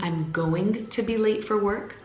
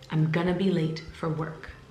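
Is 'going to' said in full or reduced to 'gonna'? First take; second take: full; reduced. First: Each word of 'going to' is said separately. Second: The words are squeezed into 'gonna'. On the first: "instead of saying" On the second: "I wanna say it faster"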